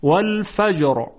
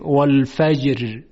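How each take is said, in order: First: والفجر ending on a thick, heavy r; heavy ر closing والفجر. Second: والفجر ending on a thin, light r; light, fronted ر closing والفجر; wrong light ra. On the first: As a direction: correct it: full final ر in والفجر. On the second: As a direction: show the mistake: thinned final ر in والفجر. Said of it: "یعنی نمیگوییم". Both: Shown as a demonstration.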